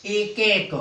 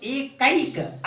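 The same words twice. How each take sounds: First: Said in the usual way. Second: "कैक" with the ऐ raised and drawn out; stress on ऐ. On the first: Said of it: "बलाघात हो रहा है". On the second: Shown as a demonstration. Teacher showing where the sandhi falls, stressed ऐ in "कैक". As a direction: lean slowly on the ऐ in "कैक". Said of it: "ऐ की मात्रा पर बलाघात हो रहा है".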